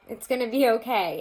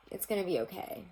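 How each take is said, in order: First: Higher, louder comforting; louder reassurance. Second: Said in the usual way. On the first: Real, not acted. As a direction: say "It's gonna be okay" louder and higher, to comfort them.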